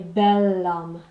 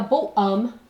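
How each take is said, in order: First: The adjective is said 'bel', linking into 'homme'. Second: The adjective is said 'bo' with no linking sound. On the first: The speaker calls it right. "I need something to link that" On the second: The speaker calls it wrong. "I can't say a beau um"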